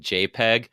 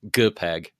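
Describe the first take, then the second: First: It starts with a soft J sound. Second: It starts with a hard G sound.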